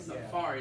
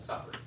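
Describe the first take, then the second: First: The stress is on the second syllable. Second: The stress is on the first syllable. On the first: The speaker calls it right. "It's on the second syllable" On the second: The speaker calls it wrong. "y'all were stressing on the first syllable"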